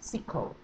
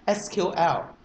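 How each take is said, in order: First: It is said as one word, sequel. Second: It is spelled out as three separate letters. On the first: The speaker is an IT professional. The speaker calls it right. "if you would like to show you are a professional I T guy" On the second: The speaker is not an IT insider. The speaker calls it wrong. "If you are not an I T guy, you will pronounce it as"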